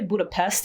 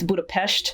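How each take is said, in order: First: The s is said as a plain s sound. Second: The s is said as an sh sound. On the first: This is how most people say it. The speaker calls it wrong. "People say Budapest" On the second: This is how the name is really said. The speaker calls it right. "apparently the S's are pronounced like sh"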